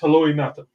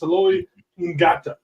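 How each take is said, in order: First: The surname is said without a G sound. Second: The surname is said with a G sound. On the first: The speaker calls it right. "but it's just Heloi Nata" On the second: The speaker calls it wrong. "if you read it"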